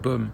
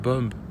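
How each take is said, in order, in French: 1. Le son b final est muet. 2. Le son b final est prononcé. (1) "si tu n'entends pas le B à la fin" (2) "on ne dit pas bomb"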